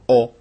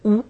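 First: The vowel is said with the mouth more open. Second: The vowel is a plain, fairly closed o. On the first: "אם אני פותח קצת יותר את הפה" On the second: "במקום שזה יוצא או"

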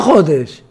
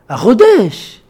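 First: The word is said in the ordinary Hebrew way. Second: The word is said in a French-like way. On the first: The speaker calls it wrong. "לא החודש" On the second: The speaker calls it right. "אתם מרשים לי מילה אחת בתנך להיות צרפתי"

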